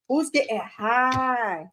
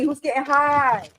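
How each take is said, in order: First: Slow drawl. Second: Said in the usual way. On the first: Pretend. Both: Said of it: "repeats the question".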